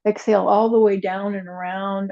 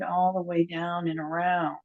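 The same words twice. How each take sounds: First: Said in the usual way. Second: Softer repeat of "all the way down and around"; quiet. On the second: Shown as a demonstration. Teacher softly repeating the cue to the class. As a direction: let "all the way down and around" fade to a soft echo.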